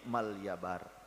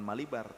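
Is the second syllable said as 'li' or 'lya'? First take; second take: lya; li. First: The second syllable is a glided 'lya'. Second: The second syllable is a plain 'li'. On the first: The speaker calls it right. "tapi Malyabar" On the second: The speaker calls it wrong. "bukan Malibar"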